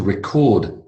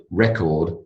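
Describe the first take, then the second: First: First "record" stressed on the second syllable; verb stress on "record". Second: Last "record" stressed on the first syllable; noun stress on "record". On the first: Teacher reads an example sentence, second-syllable stress on verb "record". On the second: Teacher reads an example sentence, first-syllable stress on noun "record". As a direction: say the noun "record" as REK-ord. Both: Shown as a demonstration. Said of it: "Noun and verb".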